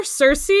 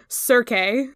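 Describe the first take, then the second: First: Circe said SUR-see; "Circe" as SUR-see, anglicized; accepted pronunciation of Circe. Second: Circe wrongly said SUR-kay; "Circe" botched as a mixed SUR-kay; mispronunciation of Circe. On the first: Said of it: "hearing somebody mispronounce Circe so wrong". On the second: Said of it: "You cannot say Circe". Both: Shown as a demonstration.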